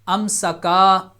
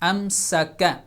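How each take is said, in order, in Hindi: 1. आख़िरी स्वर लंबा खींचा जाता है। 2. आख़िरी स्वर छोटा ही रहता है। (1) "अम सा का नहीं पढ़ेंगे" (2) "इसको स्ट्रेच नहीं करेंगे"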